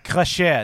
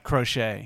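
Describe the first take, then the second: First: The word is pronounced with French sounds. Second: The word is pronounced with English sounds. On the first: The speaker calls it right. "Or the right way that it's supposed to be said" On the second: The speaker calls it wrong. "not crochet"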